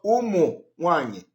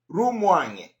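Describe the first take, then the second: First: The name begins with a vowel sound. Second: The name begins with an R sound. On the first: "not Umuwanye" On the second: "You are going to say Rumuwanye"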